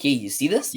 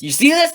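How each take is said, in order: First: Said in the usual way. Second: Alarmed repeat. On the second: Retold or imitated. Fan nudging people watching.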